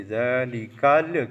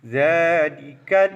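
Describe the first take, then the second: First: ذالکل with an extra little vowel bounced after the ل; wrong bounced lam. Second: Slow ذالکل, voice stopped firmly on the ل; lam held still. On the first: Teacher showing the mistake, ذالکل with a bounced final ل. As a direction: let the ل of ذالکل bounce loose. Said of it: "تو لہٰذا یوں نہیں پڑھیں گے". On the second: Teacher showing the correct reading, ذالکل stopped on a still ل. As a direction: stretch ذالکل and halt on the ل without bounce. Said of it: "یہاں پہ آواز کو روک دیں گے". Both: Shown as a demonstration.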